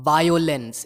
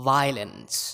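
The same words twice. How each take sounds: First: Violence slowly as VAI-yo-lens; full "yo" in the middle of violence; three clear syllables in violence, vai-o-lens; wrong pronunciation. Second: Violence slowly as VAI-lens; two-syllable violence, vai-luns; correct pronunciation. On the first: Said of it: "it's not violence". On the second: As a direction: drop the "o" from violence. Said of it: "it's violence". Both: Shown as a demonstration.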